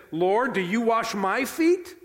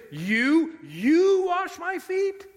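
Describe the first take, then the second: First: Said in the usual way. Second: High, loud, drawn-out "You", said twice in disbelief; stress on YOU. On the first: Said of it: "The emphasis in the Greek is on the word you". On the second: Shown as a demonstration. Peter questioning Jesus washing his feet, stress on "you". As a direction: hit "You" hard and stretch it high. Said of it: "emphasis in the Greek is on the word you. We would say it like this".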